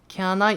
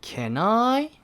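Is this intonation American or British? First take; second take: British; American. First: It has the other, British-style melody. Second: It has an American-style rising melody. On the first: "Can I가 아니라" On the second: "미국식 같은 경우에는"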